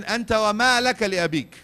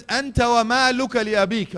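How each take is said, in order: First: Loud, quicker repeated proclamation; forceful declaration. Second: Loud, high, ringing proclamation; forceful declaration. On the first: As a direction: repeat it fast and strong. Second narration repeated. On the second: Preacher declaiming hadith. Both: Acted.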